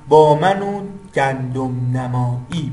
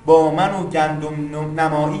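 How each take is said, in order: First: The vowel of 'u' is drawn out long. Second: The vowel of 'u' is short. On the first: The speaker calls it right. "اینو بعد اینجوری بخونی" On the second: The speaker calls it wrong. "این هجای کوتاه"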